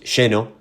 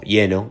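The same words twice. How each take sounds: First: It is said in the speaker's own local accent. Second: It is said as in other Latin American countries and Spain.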